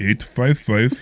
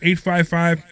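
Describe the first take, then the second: First: It is said in a put-on deep voice. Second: It is said in a normal speaking voice.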